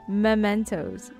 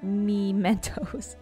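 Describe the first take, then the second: First: The first syllable is a clear 'mem'. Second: The E is blended into the M. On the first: The speaker calls it right. "But it's Mem" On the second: The speaker calls it wrong. "I usually like bunch the E with the M"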